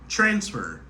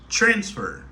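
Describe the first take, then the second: First: The stress is on the first syllable. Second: The same.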